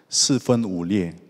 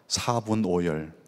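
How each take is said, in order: First: It is pronounced with the Mandarin Chinese reading. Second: It is pronounced with the Korean reading. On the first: "한자로 한번 원어민 발음으로 하겠습니다" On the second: "저는 사자성어를 하니까"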